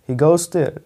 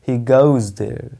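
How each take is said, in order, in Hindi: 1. Goes का अंत सिसकती s ध्वनि से होता है। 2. Goes का अंत गुंजन वाली z ध्वनि से होता है। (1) "नहीं" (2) "इसको बोलेंगे ही गोज देयर"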